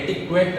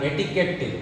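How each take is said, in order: First: It has a 'kw' sound and ends in 't'. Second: It has a plain 'k' sound, no 'kw'. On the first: The speaker calls it wrong. "ಎಟಿಕ್ವೆಟ್ ಅಂತಾಗಲಿ ಓದಬಾರ್ದು" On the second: The speaker calls it right. "ಇದನ್ನ ಎಟಿಕೆಟ್"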